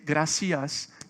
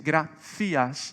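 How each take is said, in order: First: A Mexican accent, with an s sound. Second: A Spanish accent, with a th sound.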